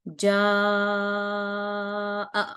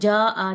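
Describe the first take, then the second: First: The vowel is stretched for about four counts. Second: The vowel is said short, not stretched. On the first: The speaker calls it right. "ये मैंने चार हरकत लंबा किया है" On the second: The speaker calls it wrong. "इसको जा आ नहीं पढ़ेंगे बल्कि इसको लंबा करेंगे"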